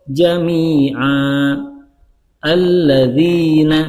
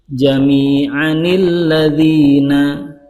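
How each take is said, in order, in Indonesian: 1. Ada waqaf di antara kedua kata, tanpa bunyi n. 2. Kedua kata itu menyambung dengan tambahan bunyi n.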